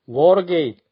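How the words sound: It is said with native English sounds and rhythm. The speaker calls it right. "당연하지만"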